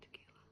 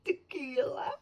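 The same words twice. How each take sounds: First: Tequila repeated in a near-silent whisper; whispering it to herself; soft echo. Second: Tequila called out loud with a falling end; calling the title proudly; excited blurt. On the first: Author quietly confirming the book title to herself. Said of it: "Yes, tequila". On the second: Author recalling the book title to viewers, loud. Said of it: "Blame It on". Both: Real, not acted.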